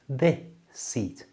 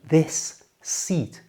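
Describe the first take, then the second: First: The two s sounds merge into one. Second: Both s sounds are pronounced separately.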